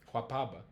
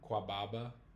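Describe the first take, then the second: First: The second consonant is a P sound. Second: The second consonant is a B sound. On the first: The speaker calls it right. "It just sounds better" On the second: The speaker calls it wrong. "That's hard"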